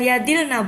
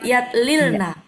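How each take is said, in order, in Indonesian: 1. Dua bunyi l menyatu menjadi satu. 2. Dua bunyi l diucapkan terpisah. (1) "Bukan yadilna"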